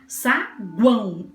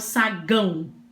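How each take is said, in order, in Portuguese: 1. Ouve-se um som de 'w' depois do g. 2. Não se ouve nenhum som de 'w' depois do g. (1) "Eu escuto o U" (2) "Eu não falo sagão"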